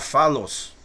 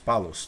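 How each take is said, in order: First: The name begins with an F sound. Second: The name begins with a P sound. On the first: "Se eu tirar esse Dagesh, ele fica com o quê? O som de F" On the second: "botando o Dagesh no meio, ele assume o som de P"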